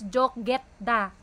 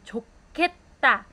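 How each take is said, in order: First: The middle consonant is plain, not aspirated. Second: The middle consonant is strongly aspirated. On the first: The speaker calls it wrong. "you don't read that as 좋겠다" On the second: The speaker calls it right. "that's how we read it properly"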